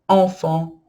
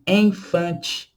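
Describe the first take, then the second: First: It is said with a French nasal vowel. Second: It is said with Portuguese-style vowels. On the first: The speaker calls it right. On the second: The speaker calls it wrong.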